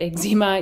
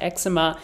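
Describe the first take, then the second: First: The word is said in the Canadian way. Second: The word is said in a non-Canadian way. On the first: "I say it eczema. I'm Canadian, so maybe that's a Canadian thing" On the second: "You can pronounce it eczema"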